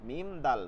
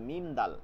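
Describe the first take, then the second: Both takes have the same delivery.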